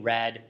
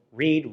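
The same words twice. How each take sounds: First: "read" pronounced like "red"; past-tense "read". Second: "read" pronounced like "reed"; present-tense "read". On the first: Teacher lists irregular verbs, "read" said as "red". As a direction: say "read" with a short e. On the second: Teacher lists irregular verbs, "read" said as "reed". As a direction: say "read" with a long ee. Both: Shown as a demonstration. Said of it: "some common irregular verbs".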